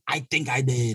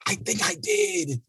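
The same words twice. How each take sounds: First: Said in the usual way. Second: Mock guilty squeak. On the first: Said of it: "repeated admission, second take". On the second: Shown as a demonstration. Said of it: "repeated admission, first take".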